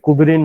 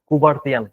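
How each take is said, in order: First: The name ends with a 'rin' sound. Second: The name ends with a 'tian' sound. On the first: The speaker calls it wrong. "এটা কুবেরিন নয়" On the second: The speaker calls it right.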